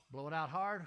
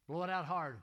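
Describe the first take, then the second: First: Firm coaching command; blowing out hard. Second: Loud coaching command; blowing out hard. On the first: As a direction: call it out firmly again. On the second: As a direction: call it out firmly. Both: Shown as a demonstration.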